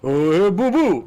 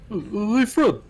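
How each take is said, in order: First: It is a Yogi Bear impression. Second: It is a bouncy Barney Rubble impression.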